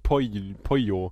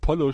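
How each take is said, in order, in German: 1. Das doppelte L ist nur ein leiser L-Laut. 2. Das doppelte L ist ein voller, klarer L-Laut. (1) "sondern Pollo. ... Mit einem leicht anklingenden L" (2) "dass man das nicht Pollo spricht"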